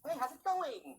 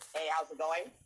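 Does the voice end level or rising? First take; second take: rising; level. First: The pitch rises high at the end. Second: The pitch stays level at the end. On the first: The speaker is seeking approval. "go up top. ... The tone at the end" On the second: The speaker is neither seeking nor breaking rapport. "Then go neutral"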